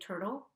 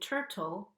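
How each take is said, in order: First: The middle T is a quick flap. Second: The middle T is a clear T. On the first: "with the flapped T" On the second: "where I don't flap the T"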